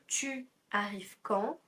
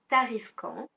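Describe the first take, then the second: First: The pronoun tu is said in full. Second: The pronoun is shortened to a bare t. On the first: "tu arrive quand devient t'arrives quand" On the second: "on va contracter le pronom tu que devant les voyelles"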